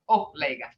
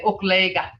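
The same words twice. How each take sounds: First: It starts with a plain oh and no k. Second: It starts with ok, with a k sound. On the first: This is the form the dictionary gives. "by the dictionary it's oklega" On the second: This is how people from the speaker's home area say it. "we would say oklega from us Hana people"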